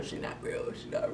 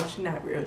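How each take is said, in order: First: Breathy whispered aside; muttered whisper to herself. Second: Said in the usual way. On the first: Real, not acted. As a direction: drop to a whisper in disbelief. Repeats, then whispers it.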